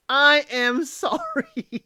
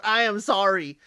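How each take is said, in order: First: Slow, laughing through the word sorry; sheepish laugh in the middle of sorry; laughing apology. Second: Said in the usual way. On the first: Real, not acted. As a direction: giggle while you apologize, higher and drawn out. Host apologizing, laughing at herself.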